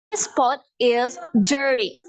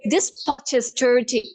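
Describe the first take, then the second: First: American accent. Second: Slow British accent, hard T in "dirty". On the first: Teacher models pot is dirty, American accent. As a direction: flap the T, slow American. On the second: Teacher converts pot is dirty, British accent. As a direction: hit every T crisply, British. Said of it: "how do you say in British". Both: Shown as a demonstration.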